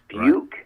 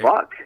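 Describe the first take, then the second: First: The vowel sounds like the one in duke. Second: The vowel sounds like the one in duck. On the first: "people don't generally get it get it right" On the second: "I get, I get bunk, believe it or not"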